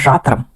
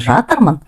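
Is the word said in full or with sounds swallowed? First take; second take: swallowed; full. First: Part of the ending is swallowed, not pronounced. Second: Every syllable of the word is fully pronounced. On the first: The speaker calls it right. "окончание последнее не произносится, как будто мы их проглатываем" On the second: The speaker calls it wrong. "звучит не жатырмын"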